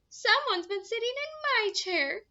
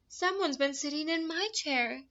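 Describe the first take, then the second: First: It is said in a high, squeaky voice. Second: It is said with a shocked, gasping voice.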